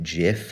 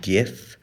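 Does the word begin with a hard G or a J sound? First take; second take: J sound; hard G. First: The word begins with a J sound. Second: The word begins with a hard G sound. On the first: "a G makes a J sound" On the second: "I've always pronounced it GIF"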